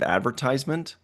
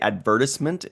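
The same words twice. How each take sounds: First: It is said the American way. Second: It is said the British way.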